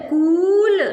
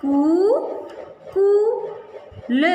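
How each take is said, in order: First: Said in the usual way. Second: कूल stretched very slowly, syllable by syllable; teacher sounding out कूल slowly. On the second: Shown as a demonstration. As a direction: draw out कूल for the class. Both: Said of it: "क में बड़े ऊ की मात्रा".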